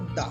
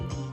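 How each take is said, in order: First: It has a short 'uh' vowel. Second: It has a long 'ee' vowel. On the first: The speaker calls it right. "इसको इसको प्रोनाउंसिएट करेंगे द" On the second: The speaker calls it wrong. "Not दी"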